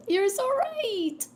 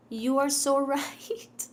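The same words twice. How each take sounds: First: High, loud and slow; excited. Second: Amused, drawn-out agreement; laughing. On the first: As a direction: squeal the agreement up high. High emphatic repeat. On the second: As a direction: laugh through the words, slowly. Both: Real, not acted.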